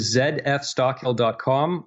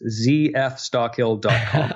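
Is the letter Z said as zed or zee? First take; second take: zed; zee. First: The letter Z is said as zed. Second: The letter Z is said as zee.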